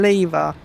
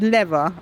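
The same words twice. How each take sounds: First: It is said with a British pronunciation. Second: It is said with an American pronunciation. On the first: The speaker calls it right. "we're English. We don't say that" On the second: The speaker calls it wrong. "really influenced by American pronunciations"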